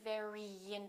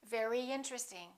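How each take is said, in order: First: A strong, exaggerated Y sound links the words. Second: A light, subtle Y sound links the words. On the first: The speaker calls it wrong. "Not too strong. Don't say very interesting" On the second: The speaker calls it right. "Let's put a little Y in there"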